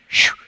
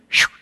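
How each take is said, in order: The two takes are said the same way.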